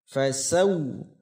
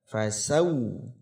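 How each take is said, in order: No difference in how they are said.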